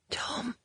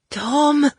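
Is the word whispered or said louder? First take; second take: whispered; louder. First: It is said barely above a whisper. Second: It is said stronger and louder.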